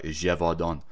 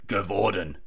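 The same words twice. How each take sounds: First: The name is said closer to its native pronunciation. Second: The name is said with an Australian English pronunciation. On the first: The speaker calls it right. "but I think it's like Gévaudan" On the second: The speaker calls it wrong. "I was pronouncing it Gévaudan, my typical Aussie accent"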